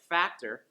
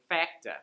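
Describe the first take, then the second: First: The word ends with an r sound. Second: The word ends with an uh sound. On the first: "Instead of words like factor" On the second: "you'll hear facta"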